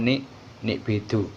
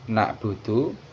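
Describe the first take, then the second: First: The vowels run i, i, u. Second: The vowels run a, u, u. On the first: The speaker calls it wrong. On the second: The speaker calls it right.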